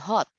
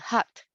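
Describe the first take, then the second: First: The vowel is a rounded British O sound. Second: The vowel is a short open A sound. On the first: "that's already like a British accent" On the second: "the pronunciation of that is an A sound, a short A"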